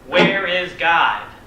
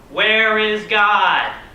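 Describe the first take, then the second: First: It is said more sternly and louder. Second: It is bellowed at the loudest volume.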